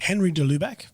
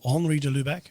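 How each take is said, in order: First: The first name is pronounced the English way. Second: The first name is pronounced the French way. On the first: The speaker calls it wrong. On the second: The speaker calls it right.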